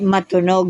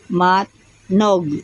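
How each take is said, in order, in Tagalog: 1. May naririnig na patinig sa pagitan ng t at n. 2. Walang naririnig na patinig sa pagitan ng t at n. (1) "Hindi matunog ha" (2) "M A T N O G"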